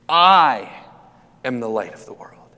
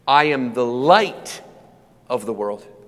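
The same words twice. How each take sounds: First: The stress is on the word I. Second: The stress is on the word light.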